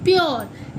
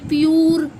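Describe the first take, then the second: First: The vowel after p sounds like oh. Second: The vowel after p sounds like oo. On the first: The speaker calls it right. "हम इसे पढ़ेंगे प्योर" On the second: The speaker calls it wrong. "नहीं पढ़ेंगे"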